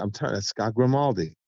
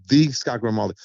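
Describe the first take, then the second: First: Said in the usual way. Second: "the" stressed as in the famous one. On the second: Retold or imitated. Telling friends it's the famous one, stressing "the". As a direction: lean on "the" to say the one and only.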